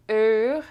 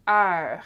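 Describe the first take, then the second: First: "heure" mispronounced with a closed "er"-like vowel; closed vowel, wrong take. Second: "heure" with a wide open eu before R; open vowel, correct take. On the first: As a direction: say "heure" as if it had the eu of "bleu", rising at the end. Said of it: "See, it's not". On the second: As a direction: contrast it by opening the vowel of "heure". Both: Shown as a demonstration.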